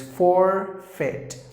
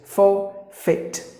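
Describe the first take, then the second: First: The R sound is clearly pronounced. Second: The R sound is not pronounced. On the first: "the Americans would pronounce the word as forfeit" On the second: "the letter R is silent"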